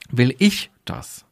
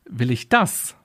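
First: The stress is on the word ich. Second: The stress is on the word das.

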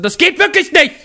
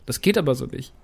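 First: It is said loudly and agitatedly. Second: It is said very quietly, like Andi.

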